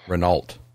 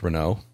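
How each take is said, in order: First: The name is said in an American way. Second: The name is said in a French-like way. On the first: This is how the family said it. "It's pronounced Renault. ... a fairly common pronunciation here in good old America" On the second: This is not how the family said it. "was never pronounced Renault"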